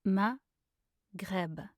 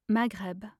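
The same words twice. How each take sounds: First: Slow, two separated syllables. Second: Said in the usual way. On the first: Shown as a demonstration. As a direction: pause between the syllables. Pronunciation guide, broken-down take.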